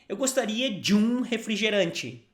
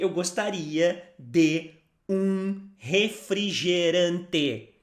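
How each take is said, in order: First: It is said at a faster pace. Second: It is said at a normal pace.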